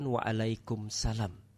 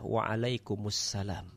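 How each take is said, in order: First: Part of the greeting is cut short. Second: Every syllable of the greeting is pronounced fully. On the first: The speaker calls it wrong. "bukan Waalaikumsalam" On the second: The speaker calls it right. "maka jawabannya adalah Waalaikumsalam"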